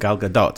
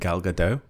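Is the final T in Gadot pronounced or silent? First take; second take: pronounced; silent. First: The final T of Gadot is pronounced. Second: The final T of Gadot is silent. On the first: The speaker calls it right. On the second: The speaker calls it wrong.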